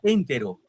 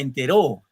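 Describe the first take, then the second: First: The stress is on the first syllable. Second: The stress is on the last syllable. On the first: "si fuera en la en dirá entero" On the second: "si fuera en la ro dirá entero"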